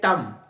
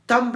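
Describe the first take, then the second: First: The word ends on m with no b. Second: The word ends with an audible b sound. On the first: The speaker calls it right. "ये तम, बी is silent" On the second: The speaker calls it wrong. "तम्ब नहीं"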